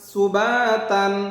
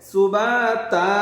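First: The word ends with an n sound. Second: The word ends on a vowel, no n. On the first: The reading continues without a stop. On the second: The reader stops at this word.

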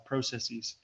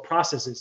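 First: It is said the Canadian way. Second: It is said the standard American way.

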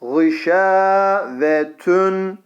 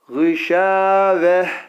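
First: The word ends with a full 'tun' sound. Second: The word ends with a soft 'h' sound. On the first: The reading continues without stopping. "Ama geçersek eğer gışavetün diye geçeriz" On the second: The reader stops at this point. "Şöyle okuyacağız"

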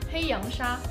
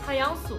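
First: The word is said with Mandarin pronunciation. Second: The word is said with Shanghainese pronunciation.

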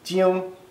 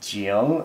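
First: The syllable is said with a non-third tone. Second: The syllable is said with a dipping third tone.

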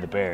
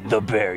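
First: It is said in a plain, normal voice. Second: It is said with a rough, growling voice. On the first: The speaker calls it wrong. "you can't just say The Bear" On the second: The speaker calls it right. "You got to have it with the growl right there"

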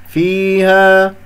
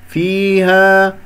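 Both takes have the same delivery.

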